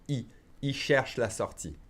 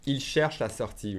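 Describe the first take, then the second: First: "Il cherche la sortie" with "Il" reduced to a bare "ee"; swallowed L. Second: "Il cherche la sortie" with the L in "Il" sounded; silent verb ending, clear L. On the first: Teacher showing learners fast speech, "Il cherche la sortie" with swallowed L. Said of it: "I'll swallow the L". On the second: Teacher modelling for learners, "Il cherche la sortie" with full "Il". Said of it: "we don't say the E N T". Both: Shown as a demonstration.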